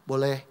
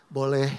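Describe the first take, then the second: Both takes have the same delivery.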